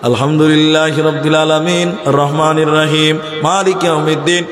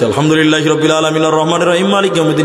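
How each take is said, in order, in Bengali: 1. এটি দ্রুত পড়া হচ্ছে, প্রতিটি বাক্যাংশে থামা হচ্ছে। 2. এটি অতি দ্রুত, অস্পষ্টভাবে বলে যাওয়া হচ্ছে। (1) "প্রত্যেক জায়গাতে দম দিচ্ছে কিন্তু খুব তাড়াতাড়ি" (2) "কি বলেছে নিজেও জানে না"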